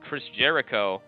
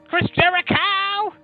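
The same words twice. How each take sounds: First: The name is said plainly, in a normal voice. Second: The name is said in a dramatic, showy way.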